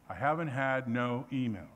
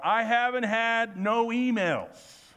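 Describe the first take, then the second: First: Said in the usual way. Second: Stressing haven't and no slowly and a little louder; a slow, emphatic "I haven't had no emails"; slow double negative. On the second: Shown as a demonstration. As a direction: land hard on "haven't" and "no".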